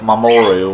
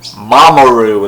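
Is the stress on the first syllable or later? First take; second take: later; first. First: The stress falls after the first syllable. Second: The stress is on the first syllable. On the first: The speaker calls it right. "instead of" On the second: The speaker calls it wrong. "stress the first syllables"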